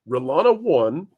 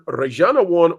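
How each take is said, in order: First: The name is said with an English pronunciation. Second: The name is said with a Spanish pronunciation. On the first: "I'm going to say Relana one" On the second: "in Spanish"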